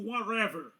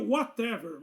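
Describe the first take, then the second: First: The middle consonant is an r-like flap. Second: The middle consonant is a clear t sound. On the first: "tem gente que fala, troca o T por R" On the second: "A pronúncia seria Whatever"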